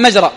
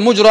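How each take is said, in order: First: مجرى said "majra", with an a after the mim; fatha on the mim. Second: مجرى said "mujra", with a u after the mim; damma on the mim. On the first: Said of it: "بالفتح". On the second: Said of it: "بضم الميم". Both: Shown as a demonstration.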